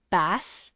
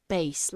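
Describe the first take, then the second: First: "bass" with the short a of "ass". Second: "bass" with the long a of "ace". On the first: Streamer asking how a name is said, "bass" with short a. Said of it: "Like, like ass?". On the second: Streamer offering the alternative name, "bass" with long a. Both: Shown as a demonstration.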